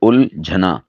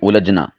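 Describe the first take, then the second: First: No vowel follows the L; the jh is aspirated. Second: A vowel follows the L; the jh is unaspirated. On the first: The speaker calls it right. "सही है उलझना, यानी लाम साकिन है" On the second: The speaker calls it wrong. "ये गलत है, इसमें हा को भी स्किप कर देते हैं और लाम के ऊपर ज़बर बोल देते हैं"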